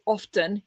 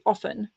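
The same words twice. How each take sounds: First: The T sound in the middle is pronounced. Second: The T sound in the middle is silent. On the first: The speaker calls it wrong. "you don't say often" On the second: The speaker calls it right. "So like you don't pronounce the T"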